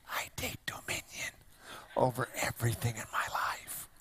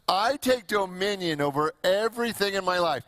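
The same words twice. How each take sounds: First: It is said in a small, timid way. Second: It is said in a big, bold way.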